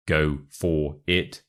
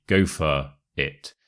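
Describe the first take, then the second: First: "for" said fully, slow and careful; slow "Go for it" with an unreduced "for"; full FOR. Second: "for" reduced to "fuh", no R; slow demo with "for" softened to "fuh"; weak FOR. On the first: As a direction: spell out "for" with its full vowel, slowly. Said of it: "So we don't say". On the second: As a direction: say "for" as a short "fuh". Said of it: "We say". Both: Shown as a demonstration.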